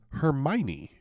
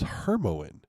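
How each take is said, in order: First: The name ends with a separate 'knee' syllable. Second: The name ends without a separate 'knee' syllable. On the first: The speaker calls it right. "How in the hell was I supposed to know it's" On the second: The speaker calls it wrong. "I've been pronouncing it in my head as"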